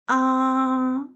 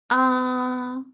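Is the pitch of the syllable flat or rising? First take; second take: flat; flat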